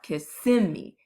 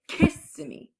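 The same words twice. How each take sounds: First: The stress is on the middle syllable. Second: The stress is on the first syllable. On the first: The speaker calls it right. "the accent of the word is on the middle part" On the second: The speaker calls it wrong. "not the beginning"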